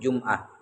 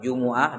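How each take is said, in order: First: The m is followed by no vowel. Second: The m is followed by a u vowel. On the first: "bisa di sukun" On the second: "di dhamma"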